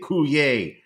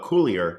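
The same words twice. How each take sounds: First: The name is said with a French-style pronunciation. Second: The name is said with an English-style pronunciation. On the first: This is how the name's owner wants it said. "I have to say Coulier" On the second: This is the natural way to say the name. "which is really, I believe, the proper pronunciation of his name"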